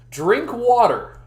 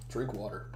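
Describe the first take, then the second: First: "Drink water" drawn out slow, loud, higher, falling on "water"; slogan emphasis. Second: "Drink water" low and soft, quick fall on "drink"; quiet slogan. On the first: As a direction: proclaim "Drink water" slowly like a motto. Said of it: "That'd be a good shirt". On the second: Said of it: "it'd be drink water". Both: Shown as a demonstration.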